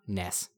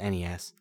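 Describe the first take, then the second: First: It is spoken as a single word. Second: It is spoken as three separate letters. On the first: It names a game character. The speaker calls it wrong. "and not NES. Never NES. NES is a character from Earthbound" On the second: It names the game console. The speaker calls it right. "henceforth known as NES"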